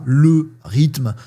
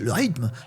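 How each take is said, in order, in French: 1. La voyelle de 'le' est entièrement prononcée. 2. La voyelle de 'le' est avalée. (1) "on dit pas" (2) "ces petits mangeages de mots"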